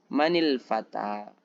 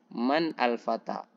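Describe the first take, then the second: First: The n takes an i vowel linking to fata. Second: The n stays closed before al with no vowel. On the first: "Kenapa berharokat kasrah?" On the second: "huruf yang sukun awalnya itu adalah man"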